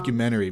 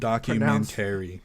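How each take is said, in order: First: The word is said quickly with reduced syllables. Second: Every syllable of the word is pronounced separately. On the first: "it's called a documentary" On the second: "in my mind, I was enunciating it"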